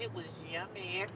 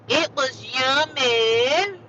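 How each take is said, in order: First: Said in the usual way. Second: Loud, high, stretched-out savoring; hammed-up singsong relish; drawn-out delight. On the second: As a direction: draw every word way out, rising at the end. Repeats it, hamming up delight.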